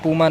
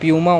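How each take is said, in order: First: The first syllable sounds like 'poo'. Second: The first syllable sounds like 'pyoo'. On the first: The speaker calls it wrong. "काफ़ी लोग बोलेंगे पूमा नहीं होता" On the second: The speaker calls it right. "प्यूमा होता है"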